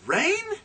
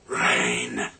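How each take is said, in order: First: It is said as an incredulous question. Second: It is said in a disgusted tone.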